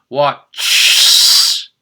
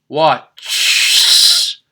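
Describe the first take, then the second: No difference in how they are said.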